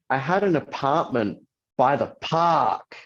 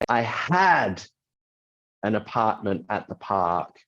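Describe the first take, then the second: First: The stress is on the word park. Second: The stress is on the word had.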